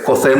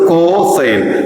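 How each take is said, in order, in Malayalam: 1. ഈ വാക്ക് ഒറ്റ യൂണിറ്റായി സുഗമമായി പറയുന്നു. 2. ഈ വാക്ക് co ക്ക് ശേഷം ഒരു ഇടവേളയോടെ പിരിച്ചാണ് പറയുന്നത്.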